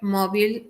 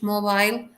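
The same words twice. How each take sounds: First: It is said with an American English pronunciation. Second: It is said with a British English pronunciation. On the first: "Mobile, American English" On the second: "Mobile, British English"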